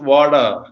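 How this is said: The t sounds like a d. "in American English it is"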